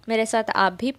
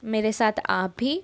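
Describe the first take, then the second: No difference in how they are said.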